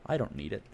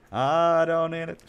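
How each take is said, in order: First: Said in the usual way. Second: Higher, louder and slow, stretching "I don't need it"; mock-grand slow "I don't need it"; drawn-out defiant declaration. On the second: Shown as a demonstration. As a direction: belt out "I don't need it" slowly like a proud boast.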